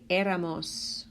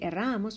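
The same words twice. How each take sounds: First: The stress is on the first syllable. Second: The stress is on the second syllable. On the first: The speaker calls it right. "we want to say éramos" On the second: The speaker calls it wrong. "We don't want to say éramos"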